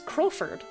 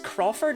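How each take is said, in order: First: The two O vowels in the name sound different. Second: Both O vowels in the name sound the same. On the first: The speaker calls it right. "but it's Crowford" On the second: The speaker calls it wrong. "I'm reading both O's the same way"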